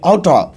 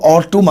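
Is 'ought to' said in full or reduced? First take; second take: reduced; full. First: The words are blended into one short 'oughta'. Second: Both words are said fully and separately.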